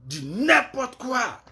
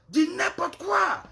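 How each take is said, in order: First: Slow, drawn-out scorn; exasperated dismissal. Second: Much higher and slow, outraged; the same words again, pitched way up in disbelief; shrill exasperation. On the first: Scolding the women on her live, slow and scornful. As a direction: drag the words out in disgust. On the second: Repeating herself to the women on her live, much higher. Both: Real, not acted.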